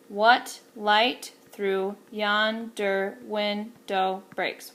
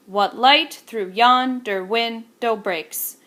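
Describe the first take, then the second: First: Slow, measured iambic beat, each stress marked; slow counted iambic line; iambic reading. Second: Slow, louder, beat you could clap to; slow clapped-out meter; rhythmic reading. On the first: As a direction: read it out syllable by syllable in meter. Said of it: "One, two, three". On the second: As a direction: tap the iambic pulse as you read. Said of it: "You could clap along to that". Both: Shown as a demonstration.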